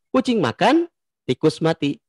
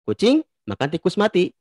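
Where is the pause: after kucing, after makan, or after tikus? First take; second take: after makan; after kucing. First: There is a pause right after the word makan. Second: There is a pause right after the word kucing. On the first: "di kata makan" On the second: "Kalau kita simpan di kata kucing"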